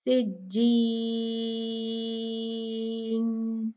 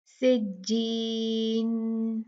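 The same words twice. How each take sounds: First: सिज्जीन with the ई held for six counts; six-count recitation of सिज्जीन; six-count madd. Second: सिज्जीन with the ई held for two counts; short stretch on the ई of सिज्जीन; two-count recitation of सिज्जीन; two-count madd. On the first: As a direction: longest stretch on the ई of सिज्जीन. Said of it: "और फिर छह". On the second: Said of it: "पहले दो count में करके दिखाऊंगी". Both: Shown as a demonstration.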